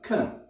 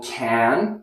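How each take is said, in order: First: The vowel is reduced to schwa. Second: The vowel is a full, strong vowel.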